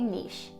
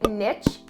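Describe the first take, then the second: First: It is said the Canadian way. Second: It is said the American way.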